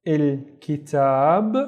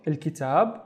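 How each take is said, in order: First: "il kitab" slowly, in separate stretched parts; slow sounding-out. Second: Said in the usual way. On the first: Shown as a demonstration. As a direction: draw out each syllable of "il kitab". Teacher sounds out word, then repeats.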